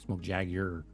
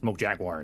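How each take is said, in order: First: Jaguar is said the British way, without a w-sound. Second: Jaguar is said the American way, with a w-sound. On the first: The speaker calls it right. "It's like no, Smoke Jaguar. There's a G" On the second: The speaker calls it wrong. "There's no W in that word. There's a G. Like Smoke Jaguar"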